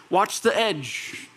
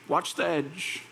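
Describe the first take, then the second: First: Slow warning. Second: Softer warning. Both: Shown as a demonstration.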